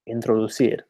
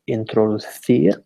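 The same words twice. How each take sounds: First: It is said with a Canary Islands accent. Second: It is said with a mainland Spain accent. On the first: "my accent is a kind of uh, mainly from the Canary Islands" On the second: "as you might in Spain"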